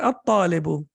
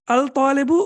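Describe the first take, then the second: First: The l merges into a doubled t. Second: The l is sounded before the t. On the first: The speaker calls it right. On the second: The speaker calls it wrong.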